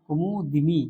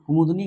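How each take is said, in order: First: An 'i' vowel is heard between d and n. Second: There is no vowel between d and n. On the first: The speaker calls it right. "सही वाक्य क्या होगा" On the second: The speaker calls it wrong. "कुमुदनी गलत वाक्य है"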